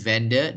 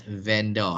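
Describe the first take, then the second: First: VENDOR said "VEN-duh", with a reduced ending; correct pronunciation. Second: VENDOR said "VEN-dor", with a full slow "dor"; wrong pronunciation. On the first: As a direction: let the end of VENDOR relax into a schwa. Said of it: "the correct pronunciation is". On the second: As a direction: give VENDOR a drawn-out "-dor" ending. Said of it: "not vendor". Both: Shown as a demonstration.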